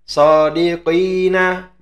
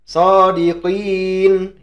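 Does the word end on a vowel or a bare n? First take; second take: vowel; bare n. First: The word ends with a vowel after the n. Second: The word ends on a bare n sound. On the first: The reader continues past the word. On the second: The reader stops on the word.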